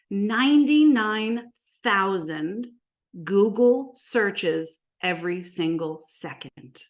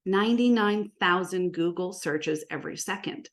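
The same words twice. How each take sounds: First: Slow, spaced-out big statistic; drawn out for impact; slow emphasis. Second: Said in the usual way. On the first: Real, not acted. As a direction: let each word of the figure land separately. Big figure stressed, then restated.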